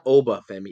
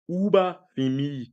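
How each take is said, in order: First: The name is said in a plain accent. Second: The name is said in a Wakandan-style accent. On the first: The speaker calls it wrong. "it's not Oba Femi" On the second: The speaker calls it right. "you got to say it with the whole Wakanda Wakandan joint"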